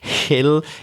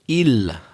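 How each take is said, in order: First: The word starts with a strong, exaggerated H sound. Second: The word starts with a vowel, no H sound. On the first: The speaker calls it right. "I'm exaggerating" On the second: The speaker calls it wrong. "like that, a typical kind of French pronunciation of that word"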